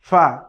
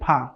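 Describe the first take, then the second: First: The sound is made with lower lip and teeth. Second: The sound is made with both lips together. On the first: The speaker calls it right. "বলতে হবে ফা।" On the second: The speaker calls it wrong. "ফা দুই ঠোঁট দিয়ে আমরা বলি ফা। ... এটি বলা যাবে না।"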